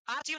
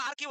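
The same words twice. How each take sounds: First: आर्चीव with a "ch" as in cheese; mispronounced with "ch". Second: आर्चीव said "ar-keev", with a k; hard k replacing the ch of आर्चीव; corrected "k" sound. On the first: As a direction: say "ar-cheev" for आर्चीव. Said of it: "आर्चीव नहीं होता". (आर्चीव में "च" बोलकर) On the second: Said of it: "क्या नहीं पढ़ते, कहाँ पढ़ते हैं?". (आर्चीव को "आर्कीव" बोलकर) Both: Shown as a demonstration.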